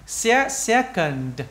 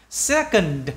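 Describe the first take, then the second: First: "Se-, second" broken up very slowly, final D clear; slow syllable by syllable. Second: Said in the usual way. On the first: Shown as a demonstration. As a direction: split "second" and land the D. (tách chậm "Se-, second", nhấn rõ âm D cuối) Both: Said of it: "D, d, d".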